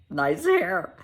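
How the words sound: It sounds mocking and condescending. The compliment is a put-down. The speaker calls it wrong. "in a condescending way"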